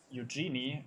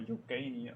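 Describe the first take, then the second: First: Eugeni said as "yoo-JEE-nee"; soft-G pronunciation. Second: Eugeni said as "yoo-GAY-nee"; hard-G pronunciation. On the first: Commentator trying a driver's surname, Eugeni as "yoo-JEE-nee". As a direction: say Eugeni with a soft J sound and an "ee" in the middle. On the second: Commentator offering another guess at the surname, Eugeni as "yoo-GAY-nee". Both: Shown as a demonstration. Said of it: "don't know how to pronounce that".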